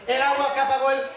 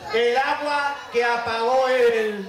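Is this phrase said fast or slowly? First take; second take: fast; slowly. First: The phrase is said quickly. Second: The phrase is said slowly. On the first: "que vamos muy rápido" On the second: "Así de lento"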